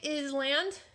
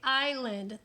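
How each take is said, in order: First: An S sound is pronounced in the middle. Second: No S sound is pronounced in the middle. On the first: The speaker calls it wrong. "We do not say island" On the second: The speaker calls it right. "we say island. The S is silent"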